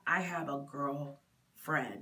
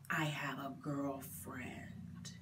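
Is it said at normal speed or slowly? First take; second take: normal speed; slowly. First: It is said at normal speed. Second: It is said very slowly and deliberately.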